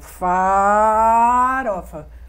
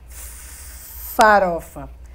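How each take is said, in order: First: A vowel in the word is held and stretched. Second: The opening consonant is held and stretched out. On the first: "Ou então na vogal, mas ele dá uma esticada" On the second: "ele faz farofa"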